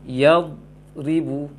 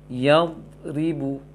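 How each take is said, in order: The two takes are said the same way.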